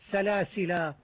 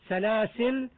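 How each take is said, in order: First: The word ends with a long a vowel. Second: The word stops on a silent l. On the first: "أو بالألف" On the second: "بإسكان اللام"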